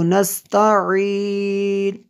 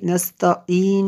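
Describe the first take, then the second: First: नस्तईन chanted with a pharyngeal ain; Tajweed नस्तईन with throat sound and held ending; correct throat ain. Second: नस्तईन spoken with a plain vowel for the ain; unchanted नस्तईन, ordinary ee; wrong, without ain. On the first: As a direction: recite नस्तईन slowly, squeeze the ain before a long ee. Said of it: "इसको नस्तईन ऐसे पढ़ना है". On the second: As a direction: say नस्तईन quickly, no throat sound before the ee. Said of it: "नस्तईन नहीं पढ़ना इसको". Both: Shown as a demonstration.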